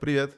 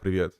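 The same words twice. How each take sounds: First: The pitch rises at the end. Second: The pitch falls at the end.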